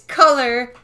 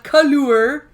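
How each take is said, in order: First: The word has a plain English pronunciation. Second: The word has a French-style pronunciation. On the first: The speaker calls it right. "It's color" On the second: The speaker calls it wrong. "It's not a French word"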